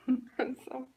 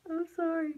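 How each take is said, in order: First: Whispered apology after a laugh; unvoiced sorry after laughing; breathy whispered apology. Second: Pitched-up teary sorry; higher, louder apology. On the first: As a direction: whisper it, catching your breath. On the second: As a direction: voice jumps up on sorry. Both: Real, not acted.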